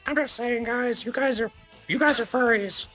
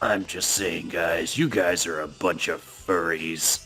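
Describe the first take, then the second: First: It is said in a voice unlike Cog's. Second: It is said in an imitation of Cog's voice.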